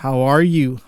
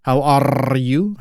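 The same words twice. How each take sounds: First: Said in the usual way. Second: "are" slowed, with a long trilled R; rolled R. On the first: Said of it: "Kalian bisa langsung denger". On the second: Shown as a demonstration. Teacher showing learners an Indonesian-style greeting, rolled R on "are". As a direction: draw out and roll the R in "are". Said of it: "bahasa Inggrisnya rolling R".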